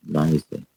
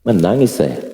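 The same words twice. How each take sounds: First: "Menangis saya" dropped much softer and lower; softly repeated. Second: Said in the usual way. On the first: Retold or imitated. Preacher repeating to the congregation that he cried, softer. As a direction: let it fall away quietly.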